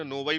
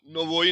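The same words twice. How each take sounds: First: नोवाई with the unstressed o said as a, "na-vai"; Russian akanye on नोवाई; correct reduced o. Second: नोवोई said with a full round o, "no-voi", the mistaken reading; spelling pronunciation of नोवोई; wrong full o. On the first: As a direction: give नोवाई the right Russian reading, o reduced to a. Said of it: "नोवाई पढ़ेंगे". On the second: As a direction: read नोवोई letter by letter with a clear o, as the error. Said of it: "नोवोई नहीं पढ़ेंगे ना". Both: Shown as a demonstration.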